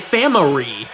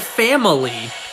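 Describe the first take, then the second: First: The l sound is replaced by another sound. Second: The l sound is pronounced clearly. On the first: The speaker cannot pronounce the letter. The speaker calls it wrong. "She did not say family" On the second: The speaker pronounces the letter properly. The speaker calls it right. "she's actually able to pronounce L sounds. Because she said family"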